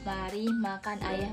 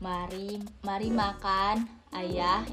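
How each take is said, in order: First: It is said straight through without a pause. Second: There is a pause after the first word. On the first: We are the ones eating the father. "berarti dilangsungin, ini tanpa tanda baca atau tanda koma" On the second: The father is being invited to eat. "Ini pakai tanda komanya, jadi kayak ada jedanya gitu loh"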